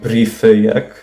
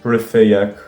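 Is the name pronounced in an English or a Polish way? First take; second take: Polish; English. First: The name is pronounced the Polish way. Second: The name is pronounced the English way. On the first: "the most correct pronunciation for it would be" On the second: "If you want to anglicize it"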